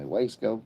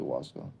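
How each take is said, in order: First: Wasco with a long A, WAYS-koh; American-style pronunciation. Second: Wasco with an open AH, WAHS-koh; likely pronunciation. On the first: Streamer puzzling over a town's name, Wasco said WAYS-koh. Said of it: "saying it the American way". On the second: Streamer correcting the town's name, Wasco said WAHS-koh. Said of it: "It's probably Wasco". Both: Shown as a demonstration.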